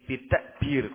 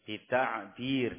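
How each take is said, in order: First: The middle consonant is a plain glottal stop. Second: The middle consonant is a pharyngeal ain. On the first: The speaker calls it wrong. "kok pakai hamzah" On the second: The speaker calls it right. "dengan ain"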